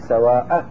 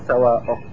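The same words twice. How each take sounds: First: The hamza is followed by an a-vowel. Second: The hamza is followed by a different vowel. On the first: The speaker calls it right. "هو فتح الهمزة في سواءك" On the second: The speaker calls it wrong. "مو سواءك"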